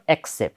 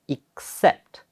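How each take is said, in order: First: The stress is on the first syllable. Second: The stress is on the second syllable. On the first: The speaker calls it wrong. "It's not accept" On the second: The speaker calls it right. "with the stress, second syllable"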